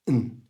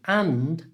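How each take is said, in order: First: 'And' is reduced to a short 'n'. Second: 'And' is said fully, with its 'd'. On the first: "becomes n" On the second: "So and becomes n"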